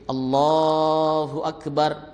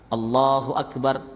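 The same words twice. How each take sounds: First: The vowel is held slightly longer than normal. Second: The vowel is held for a short, measured length. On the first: "biasanya orang Indonesia agak panjang dikit. ... boleh masih" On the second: "dua harakat, ... Itu yang paling pas"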